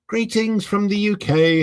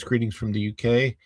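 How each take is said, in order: First: A hammed-up British accent, pitched higher; bad UK accent. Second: Said in the usual way. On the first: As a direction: read the greeting in a clumsy British accent. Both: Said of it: "I probably do a horrible U K accent".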